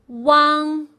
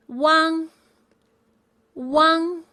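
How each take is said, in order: First: Wang with the mouth opened wide on the a. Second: Said in the usual way. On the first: Shown as a demonstration. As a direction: open up the vowel of Wang. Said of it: "open your mouth wider and say Wang". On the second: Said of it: "U A N G is pronounced as".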